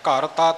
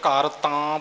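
First: The second word has a short plain vowel. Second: The second word has a long nasal vowel. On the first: The speaker calls it right. "ਇੱਥੇ ਤੱਤਾ ਮੁਕਤਾ ਹੈ" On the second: The speaker calls it wrong. "ਆਮ ਤੌਰ 'ਤੇ ਘਰ ਤਾਂ ਬੋਲ ਜਾਂਦੇ ਨੇ"

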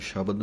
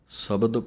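First: The word begins with an sh sound. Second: The word begins with a plain s sound. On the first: The speaker calls it wrong. "ਇਹਨੂੰ ਸ਼ਬਦ ਨਹੀਂ ਕਹਿ ਦੇਣਾ" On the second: The speaker calls it right. "ਇਸੇ ਤਰ੍ਹਾਂ ਹੀ ਬੋਲਣਾ ਹੈ"

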